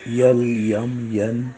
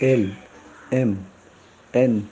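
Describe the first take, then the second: First: Each letter name begins with a y glide. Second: Each letter name begins with a plain vowel. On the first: The speaker calls it wrong. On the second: The speaker calls it right.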